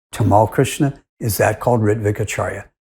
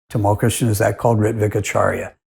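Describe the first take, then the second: The two takes are said the same way.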